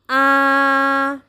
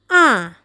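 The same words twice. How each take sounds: First: The pitch stays level throughout. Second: The pitch falls from high. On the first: "Nada pertama bunyinya datar" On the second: "nadanya dari tinggi turun"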